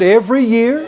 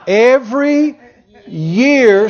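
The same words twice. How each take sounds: First: It is spoken at a normal pace. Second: It is spoken very slowly.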